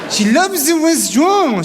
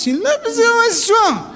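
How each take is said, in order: First: Said in the usual way. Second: Mock-posh "the restaurant" with a lift on "the". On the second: Shown as a demonstration.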